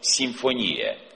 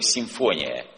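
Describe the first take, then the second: First: The stress falls where the Greek word has it. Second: The stress falls where Russian speakers put it.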